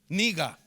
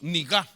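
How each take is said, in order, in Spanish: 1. El acento está en la primera sílaba. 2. El acento está en la última sílaba. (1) "No, mejor dicho" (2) "Le faltó el acento en la A"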